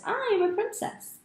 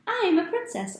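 First: Even higher, ending on a rise; rising excited girl. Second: High, bright, joyful shout; excited girl. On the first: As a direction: call it again, climbing higher. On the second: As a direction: sing it out like a thrilled little girl. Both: Acted.

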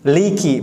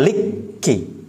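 First: Liki with a short, undoubled kaf; correct reading. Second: Liki with the kaf held and doubled; wrong reading. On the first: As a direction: liki said lightly, kaf not held. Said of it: "Yang benar maliki". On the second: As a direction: liki misread slowly, kaf stressed. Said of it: "bukan liki". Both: Shown as a demonstration.

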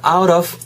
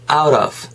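First: OUT OF as two separate Korean-style words, "아웃 오브"; choppy OUT OF, no flap; wrong pronunciation. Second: OUT OF run together as "아우러브"; linked OUT OF with a flapped T; linked pronunciation. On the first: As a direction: say "out of" unlinked, with a hard T. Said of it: "not out of예요". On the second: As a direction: say "out of" as one word, T softened to a flap. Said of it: "out of가 연음이 되면". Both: Shown as a demonstration.

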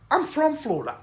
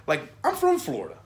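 First: Higher, put-on Florida good-old-boy accent; Florida dude voice. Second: Said in the usual way. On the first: Shown as a demonstration. Vlogger showing how Florida dudes talk, Florida accent. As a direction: slip into a local Florida dude's accent. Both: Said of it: "I know dudes who talk like this".

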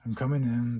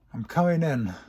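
First: Announcing entry again. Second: Announcing entry. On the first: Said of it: "Wait a minute". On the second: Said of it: "Twilight's voice announced". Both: Acted.

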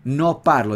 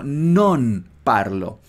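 First: No parlo with plain no; wrong form. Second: Non slow and stressed with clear n; right take, emphasised. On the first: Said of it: "cómo no digo no". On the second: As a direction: say non parlo, leaning on non. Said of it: "Nota, por favor". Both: Shown as a demonstration.

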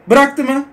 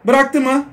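The two takes are said the same way.

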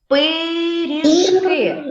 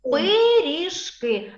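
First: "Пиріжки" very slow, syllable by syllable; drawn-out sounding-out. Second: Said in the usual way. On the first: Shown as a demonstration. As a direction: stretch every syllable of "Пиріжки". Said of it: "Давайте ми з вами це слово промовимо".

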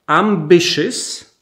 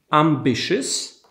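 First: Said in the usual way. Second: Ambitious said again slowly and carefully, each syllable clear; slow repeat. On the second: Shown as a demonstration. Teacher repeating ambitious slowly for students. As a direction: stretch out ambitious for learners to copy. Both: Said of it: "I mamy ambitious".

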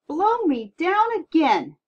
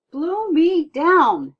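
First: Slow, much higher and louder astonished cry; the stunned captain gasps once more; amazed exclamation. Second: Slow, drawn-out, much higher and louder astonished cry; amazed exclamation. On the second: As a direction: gasp it out as a stunned old captain. Captain amazed at giant boy. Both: Acted.

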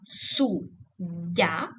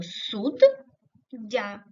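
First: СУДДЯ split as су ... ддя, pause after су; суддя broken before the double д; syllable break. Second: СУДДЯ split as суд ... дя, pause between the two д; суддя broken inside the double д; syllable break. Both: Shown as a demonstration. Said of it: "його перенести як суддя".

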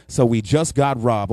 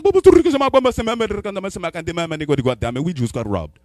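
First: Said in the usual way. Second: Rapid mock-African babble ending in English; mock African accent. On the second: African roommate repeats the robbery news, mock-accent babble. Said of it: "he mix it with English".

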